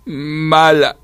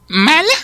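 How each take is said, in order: First: Drawn-out, higher wounded whimper; hurt little creature accusing, on the verge of crying; near tears. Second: Very high, loud question; affronted squawk, rising sharply; indignant echo. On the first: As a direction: pout the word out tearfully. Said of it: "al borde de las lágrimas". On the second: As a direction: throw the insult back in disbelief. Ant indignantly echoes the accusation. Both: A narrator's reading.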